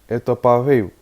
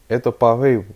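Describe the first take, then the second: No difference in how they are said.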